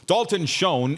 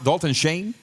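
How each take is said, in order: First: The surname is said without a 'Shane' vowel. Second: The surname is said to rhyme with 'Shane'. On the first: This is how the broadcaster says it. "if we're saying that right, I know that's what they're saying on T S N" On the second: This may be the correct pronunciation. "Shouldn't it be Don- Dalton Shane?"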